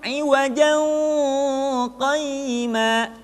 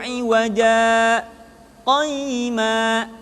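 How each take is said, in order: First: The two words run together without a break. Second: A brief stop without breath separates the words. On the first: The speaker calls it wrong. "tidak boleh disambung iwajan qayyima" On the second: The speaker calls it right. "disaktah dulu, berhenti tapi tanpa bernafas"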